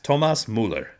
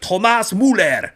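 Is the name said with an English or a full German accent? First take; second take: English; German. First: The name is said with an English accent. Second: The name is said with a full German accent. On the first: "It's Thomas Muller" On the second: "go like full German and go like Derek Ray does it"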